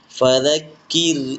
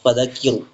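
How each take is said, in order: First: The r sound is light and thin. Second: The r sound is heavy and thick. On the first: The speaker calls it right. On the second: The speaker calls it wrong.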